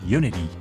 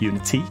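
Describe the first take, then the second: First: The T is softened into a D sound. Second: The T is pronounced as a clear T. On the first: "It's like Uni-D with a D at the end" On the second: "my wife's British, so it's like Unity. You actually pronounce the T"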